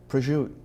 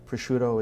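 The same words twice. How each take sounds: First: It is said the Italian-American way. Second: It is said the standard Italian way. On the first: This is the form used by immigrant communities. "has become the sort of the the, the Italian-American vocabulary" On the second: This is the official form in the language. "is the is the Italian"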